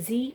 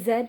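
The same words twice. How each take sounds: First: The letter is said the non-Canadian way. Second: The letter is said the Canadian way. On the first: "instead of Z" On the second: "I say Z because it's fun to say ... even though I'm not Canadian"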